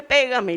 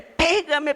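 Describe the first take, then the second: First: Repeated dare dropping back down; defiant dare, softer. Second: Higher, challenging mock shout; defiant dare. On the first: Retold or imitated. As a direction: repeat the dare with less push. (desafío repetido, más suave) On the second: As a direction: dare him to hit you. (desafiante, más agudo) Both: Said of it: "ya me enojé".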